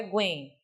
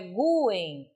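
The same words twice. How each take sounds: First: "guen" as one syllable, gwen; unstressed U in guen. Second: "guen" in two beats, a strong GU then en; stressed U in guen. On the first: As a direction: glide the U of "guen" straight into the vowel. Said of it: "Esse guen me leva a entender que é uma sílaba átona". ("guen" com o U átono, numa sílaba só) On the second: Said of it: "Veja que agora não é guen". ("guen" com o U tônico, GU-en) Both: Shown as a demonstration.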